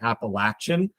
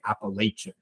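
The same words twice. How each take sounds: First: It is pronounced the southern US way. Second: It is pronounced the northern US way. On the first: This is how people in the southern states say it. "The southern states tend to say Appalachian" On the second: This is how people in the northern states say it. "Northern states tend to say Appalachian"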